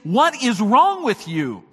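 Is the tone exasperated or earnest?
earnest. It is asked in a serious, earnest tone.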